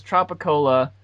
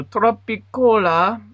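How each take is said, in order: First: Said in the usual way. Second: "Tropicola" said slow and high, Spanish vowels, tro-pi-ko-la; coworker's Spanish "Tropicola", drawn out with a rise; imitating the coworker. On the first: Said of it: "it says". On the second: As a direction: stretch out "Tropicola" the Spanish way, pure o and a. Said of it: "he's like, you know".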